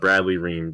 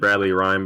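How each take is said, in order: First: The surname rhymes with the word team. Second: The surname rhymes with the word time. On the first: The speaker calls it right. "Just make sure you pronounce it correctly" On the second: The speaker calls it wrong. "I pronounced it Bradley Rhyme before, and uh, he wasn't too happy about that"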